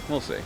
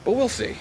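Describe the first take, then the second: First: Said in the usual way. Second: "we'll" lifted much higher in a teasing sing-song; sing-song doubt. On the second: Acted. Player teases his own plan, "we'll" sung high.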